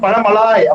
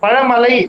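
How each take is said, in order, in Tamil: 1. பெயர் நீண்ட 'laay' ஒலியில் முடிகிறது. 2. பெயர் குறுகிய 'lai' ஒலியில் முடிகிறது. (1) "பழமலாய் அப்படின்னு படிச்சேன்" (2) "பழமலை அப்படின்னு நமக்கு தெரியும்"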